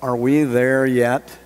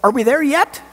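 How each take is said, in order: First: Slow, drawn-out tired question; weary whine. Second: Much higher, excited question rising at the end; eager. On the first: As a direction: drag it out like a kid stuck in the back seat. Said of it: "it'll be the sense of". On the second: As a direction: bounce it up like you can see the destination. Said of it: "a bit more like". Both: Shown as a demonstration.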